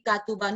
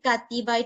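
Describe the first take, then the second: First: The vowel after the t is u. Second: The vowel after the t is i. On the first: "these are wrong pronunciations" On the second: "these are wrong pronunciations"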